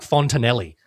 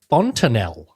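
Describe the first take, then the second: First: The word ends with an 'ee' sound. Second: The word ends with an 'el' sound. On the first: The speaker calls it wrong. "So I thought it was like Fontanelli" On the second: The speaker calls it right. "how to pronounce this"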